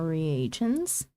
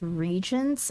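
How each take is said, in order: First: The word has three syllables, with a separate 'a'. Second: The word has two syllables, with no separate 'a'. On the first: The speaker calls it right. "the A is not silent" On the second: The speaker calls it wrong. "Aren't they still pronounced regents"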